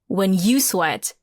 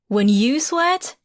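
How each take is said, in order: First: It falls like a definite statement. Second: It rises like a question at the end.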